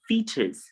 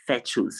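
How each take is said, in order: First: Fetus with a long ee, FEE-tus; fetus, clear long ee first; correct fetus. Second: Fetus said FEH-tus, short e; the fetus to avoid, FEH-tus; wrong fetus. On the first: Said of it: "we have it in fetus". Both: Shown as a demonstration.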